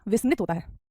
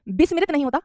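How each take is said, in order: First: विस्मृत as "vis-mrit"; correct pronunciation. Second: विस्मृत as "bis-mi-rit"; extra i between m and r in विस्मृत; wrong pronunciation. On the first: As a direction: run m and r together in विस्मृत. (सही उच्चारण, विस्मृत में व और मृ) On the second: (गलत उच्चारण, विस्मृत को बिस्मिरित बोलें) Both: Shown as a demonstration.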